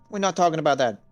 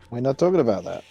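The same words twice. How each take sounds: First: It is said in the character's put-on accent. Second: It is said in the speaker's natural voice.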